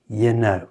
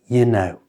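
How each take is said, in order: No difference in how they are said.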